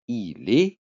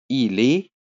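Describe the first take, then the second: The two takes are said the same way.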